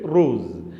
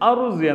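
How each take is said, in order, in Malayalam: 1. വാക്ക് നേരിട്ട് r ശബ്ദത്തോടെയാണ് തുടങ്ങുന്നത്. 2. വാക്ക് r-ന് മുമ്പുള്ള ഒരു ഹ്രസ്വ സ്വരാക്ഷരത്തോടെയാണ് തുടങ്ങുന്നത്. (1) "റൂസ്, അകൽത്ത് റൂസ് എന്ന് പറയാം" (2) "അതിൻ്റെ യഥാർത്ഥ അറബിയിൽ അറുസ് എന്നാണ്... അറുസ് എന്ന് പറയരുത്"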